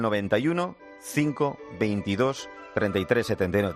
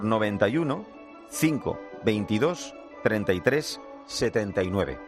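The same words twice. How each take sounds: First: It is said at normal speed. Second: It is said slowly.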